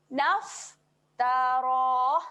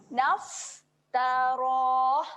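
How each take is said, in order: Both takes have the same delivery.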